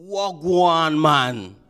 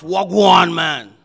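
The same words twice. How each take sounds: First: Relaxed Jamaican patois hello, a little louder; Jamaican greeting. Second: Loud, gruff Jamaican shout of a greeting; heavy gruff Jamaican. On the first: Pastor showing the congregation a Jamaican hello, Jamaican accent. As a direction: greet them the easy Jamaican way. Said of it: "they will usually greet you". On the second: Pastor demonstrating a heavy Jamaican greeting, gruff loud Jamaican accent. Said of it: "in a heavy, mm, gruff". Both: Shown as a demonstration.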